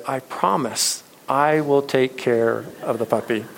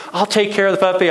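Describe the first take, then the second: First: Said in the usual way. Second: Put-on high, loud eager kid voice; boy's pitched-up, loud begging; begging child. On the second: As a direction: plead like a little boy desperate for a puppy. Boy begging mom for puppy.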